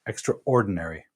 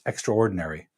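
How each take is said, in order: First: It is said in a Canadian accent. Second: The same.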